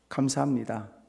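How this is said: It sounds irritated and grudging.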